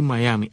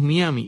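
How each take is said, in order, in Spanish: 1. Empieza con un sonido 'eye', al estilo inglés. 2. Empieza con un sonido 'ee', al estilo español. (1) "Lo correcto es decir Miami" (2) "como Miami es tan fácil de leer en español como Miami, los cubanos decimos Miami"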